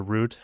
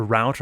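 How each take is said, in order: First: Route rhyming with "boot"; route pronounced "root". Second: Route rhyming with "out"; route pronounced "rowt". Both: Shown as a demonstration. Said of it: "what do you guys say".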